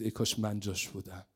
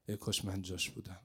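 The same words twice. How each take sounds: First: Wistful murmur. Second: Hushed, longing repetition; fading wistful echo. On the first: Uncle's wistful words. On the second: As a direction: repeat ای کاش من جاش بودم much softer, almost to yourself. The wish repeated, fading. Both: Acted.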